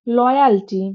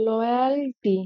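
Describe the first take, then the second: First: Said in the usual way. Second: loyalty repeated softer, syllables stretched apart; drawn-out repetition. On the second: Shown as a demonstration. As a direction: say loyalty slowly and evenly for learners. Repeats word slowly for learners.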